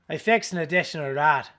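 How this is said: It is read in a put-on Irish accent. "I'm going to do, for you, Chuck Norris, an Irish accent"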